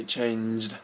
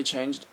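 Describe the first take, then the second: First: "changed" met lang aangehouden E; long E. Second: Said in the usual way. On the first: Shown as a demonstration. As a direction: stretch the E in "changed", slowly. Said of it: "like, really long E". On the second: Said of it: "when I say changed".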